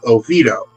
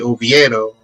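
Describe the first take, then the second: First: It is said with an American pronunciation. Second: It is said with a Spanish pronunciation. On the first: The speaker calls it wrong. "the Americanized way" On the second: The speaker calls it right. "pronounced the name correctly"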